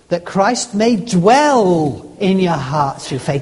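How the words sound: The word dwell carries the stress. It is living there, not just passing through. "Next word, ... Not just pass"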